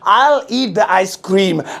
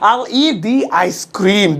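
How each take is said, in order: First: The word 'the' is said as 'duh'. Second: The word 'the' is said as 'dee'. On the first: The speaker calls it wrong. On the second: The speaker calls it right.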